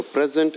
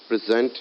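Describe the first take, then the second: First: PREZ-ent, the noun; stress on first syllable. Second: Pre-ZENT, the verb; stress on second syllable. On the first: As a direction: lean on PREZ in "present". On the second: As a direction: lean on ZENT in "present". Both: Shown as a demonstration. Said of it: "they are pronounced differently".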